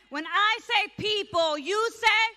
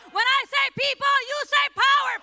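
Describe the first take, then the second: First: Said in the usual way. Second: Loud, high rally call; hyped crowd warm up. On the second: Real, not acted. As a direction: pump up the crowd, shouting. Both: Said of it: "so we start with a chant".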